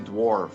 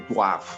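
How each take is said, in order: First: It is said with an American accent. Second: It is said with a Liberian accent.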